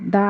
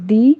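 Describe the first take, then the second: First: The vowel of 'the' sounds like 'duh'. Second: The vowel of 'the' sounds like 'dee'. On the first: The speaker calls it wrong. "দ্য I E L T S বললে ভুল হবে" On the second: The speaker calls it right. "তাই দি হবে"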